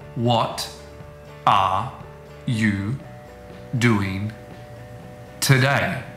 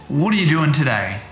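First: Each word is said separately and clearly. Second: The words run together messily and blur. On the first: "This is called the citation form of a word, and they're not influenced by other words around them" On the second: "It's very hard at times to hear where one word begins and another word ends"

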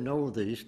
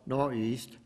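First: The word is said in full, with the th. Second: The word is clipped to nor'east without th. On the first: The speaker calls it right. "now you notice I say northeast" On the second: The speaker calls it wrong. "not northeast, as some people think"

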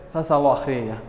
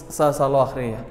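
No difference in how they are said.

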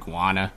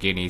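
First: The word is said like 'gwana'. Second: The word is said like 'ginny'. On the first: The speaker calls it wrong. "but I keep saying guana" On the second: The speaker calls it right. "I'm guessing that's how you actually pronounce it"

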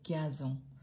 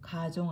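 First: The first syllable has a 'y' glide, 'gya'. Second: The first syllable is a plain 'ga'. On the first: The speaker calls it right. "가종 아니고 갸종" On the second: The speaker calls it wrong. "가종 아니고"

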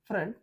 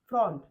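First: The vowel is a short 'uh' sound. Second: The vowel is an open 'aw' sound. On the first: The speaker calls it right. "याला म्हणायचं अ" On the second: The speaker calls it wrong. "फ्र ऑन फ्रॉन्ट नाही"

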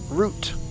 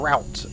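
First: The word is said in a British accent. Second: The word is said in an American accent.

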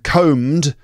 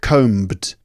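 First: The B is silent. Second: The B is pronounced. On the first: The speaker calls it right. "The B is silent" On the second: The speaker calls it wrong. "not combed"

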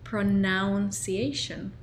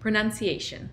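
First: The second syllable sounds like 'noun'. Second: The second syllable sounds like 'nun'. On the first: The speaker calls it wrong. "solía decir pronunciation. No es correcto" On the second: The speaker calls it right. "Pero pronunciación es pronunciation"

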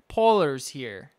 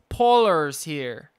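The two takes are said the same way.

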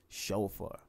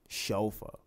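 The two takes are said the same way.

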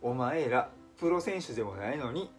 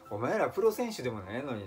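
First: The phrase is spoken slowly. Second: The phrase is spoken quickly. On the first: "ゆっくり言いますとですね" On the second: "ちょっと早口で言いましたけどね"

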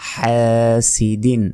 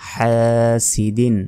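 Both takes have the same delivery.

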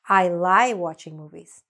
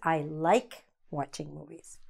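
First: The 'k' at the end of 'like' is dropped. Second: The 'k' at the end of 'like' is clearly pronounced. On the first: The speaker calls it wrong. "If you don't enunciate it clearly, it sounds like I lie" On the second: The speaker calls it right. "No, not I lie watching movies"

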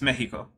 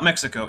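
First: Mexico is pronounced the Spanish way. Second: Mexico is pronounced the English way. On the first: The speaker calls it right. "If you're going to speak Spanish, ... It's Mexico" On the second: The speaker calls it wrong. "it's not Mexico"

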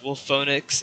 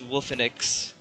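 First: The second vowel sounds like 'oh'. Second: The second vowel sounds like 'eh'. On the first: The speaker calls it wrong. "is what my friends thought it was pronounced as, but it's not" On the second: The speaker calls it right. "it's Wolfenix"

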